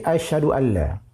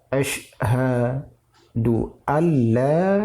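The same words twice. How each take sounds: First: The 'sh' is weak and runs into the h. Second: The 'sh' is held fully before the h. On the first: The speaker calls it wrong. "karena lemah di huruf shin ... Itu keliru" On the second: The speaker calls it right. "Yang benar adalah"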